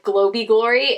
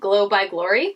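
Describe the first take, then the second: First: The first word is said as 'glowy', with no b. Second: The first word is 'glow', followed by 'by'. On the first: The speaker calls it wrong. "I pronounced it like Glowy Glory" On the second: The speaker calls it right. "it was probably glow, like glowing"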